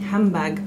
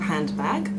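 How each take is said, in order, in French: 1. Le n et le d deviennent un son m. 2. Le milieu se prononce avec les sons n et d.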